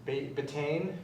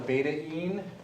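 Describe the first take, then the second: First: It is said as one word, 'bay-teen'. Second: It is said as 'beta' plus 'een'. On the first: The speaker calls it wrong. "Some people would mispronounce it as betaine" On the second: The speaker calls it right. "It's called a beta-ene"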